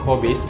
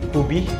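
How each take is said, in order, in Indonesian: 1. Diucapkan dengan lafal bahasa Melayu baku. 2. Diucapkan dengan lafal logat Kelantan.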